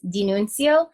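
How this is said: The name is said with an Italian accent. "if you put on like that Italian accent"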